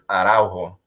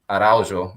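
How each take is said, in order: First: The J is said with a Spanish sound. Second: The J is said with a Portuguese sound. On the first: "if you say it in Spanish" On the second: "There's the actual Portuguese way"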